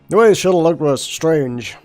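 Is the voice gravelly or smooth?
smooth. The voice is smoother, without the gravel. The speaker calls it right. "probably shouldn't be doing the whole gravel voice thing"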